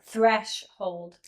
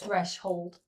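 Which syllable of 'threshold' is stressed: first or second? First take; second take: first; second. First: The stress is on the first syllable. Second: The stress is on the second syllable. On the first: The speaker calls it right. "It's threshold" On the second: The speaker calls it wrong. "Not threshold"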